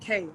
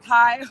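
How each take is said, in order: First: The surname rhymes with 'day'. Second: The surname rhymes with 'eye'. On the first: The speaker calls it right. "pronounced K" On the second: The speaker calls it wrong. "not Karina Kai"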